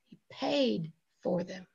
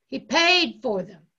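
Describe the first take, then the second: First: Softer, falling away after a weighty 'paid'; understated statement. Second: PAID punched out loud; stress on PAID. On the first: Preacher tells congregation of Jesus's payment, softly understated. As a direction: say it low-key, letting it settle. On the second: Preacher drives it home to congregation, PAID loudly stressed. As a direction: hit 'paid' hard, then let 'for them' fall. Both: Real, not acted. Preacher repeats line for emphasis.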